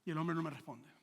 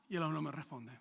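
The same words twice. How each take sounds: The two takes are said the same way.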